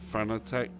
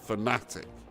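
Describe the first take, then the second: First: It is not said like the word fanatic. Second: It is said like the word fanatic. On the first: The speaker calls it wrong. "I don't know why I say Fanatec" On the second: The speaker calls it right. "It's fanatic. That's the proper pronunciation"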